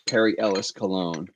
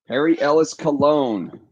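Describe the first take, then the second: First: Said in the usual way. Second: Slow, higher triumphant naming; found it. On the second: Real, not acted. Finally finding the lost bottle, he names it triumphantly. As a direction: savour the name once it turns up.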